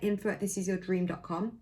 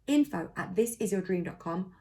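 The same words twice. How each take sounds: First: The address is spoken at a quicker pace. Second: The address is spoken at a slower pace.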